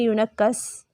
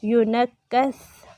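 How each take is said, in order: First: यूनक्कस ending in a hissy, whistled seen sound; whistling s for tha. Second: यूनक्कस ending in a soft th, drawn out slowly; soft tha, no whistle. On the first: Teacher shows students the slip, whistled s. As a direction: end यूनक्कस on a sharp s instead of th. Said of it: "सीटी की आवाज़ आएगी तो". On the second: Teacher models the word for students, soft unwhistled th. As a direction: end यूनक्कस with tongue-tip th, no hiss. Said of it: "तो ये सीन बन जाएगा". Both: Shown as a demonstration.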